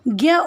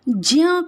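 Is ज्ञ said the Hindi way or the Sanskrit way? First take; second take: Hindi; Sanskrit. First: The letter is said the Hindi way. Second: The letter is said the Sanskrit way. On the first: This is how it is commonly said in Hindi. "परंतु हम यहाँ इसे ज्ञ उच्चारण करते हैं" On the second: This is the proper traditional pronunciation. "Sanskrit में हम इसका उच्चारण ज्ञ करते हैं"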